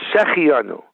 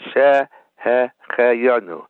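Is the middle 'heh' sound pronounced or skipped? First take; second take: skipped; pronounced. First: The middle 'heh' syllable is skipped. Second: The middle 'heh' syllable is clearly pronounced. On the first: The speaker calls it wrong. "They say Shehecheyanu. They skip the hey" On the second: The speaker calls it right. "It has to be separately pronounced"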